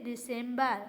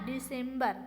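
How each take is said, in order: Both takes have the same delivery.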